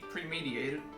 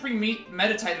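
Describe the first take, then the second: First: The word is said with one syllable dropped. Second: The word is said with all its syllables. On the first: The speaker calls it wrong. "I say premedi premediated" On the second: The speaker calls it right. "instead of saying premeditated"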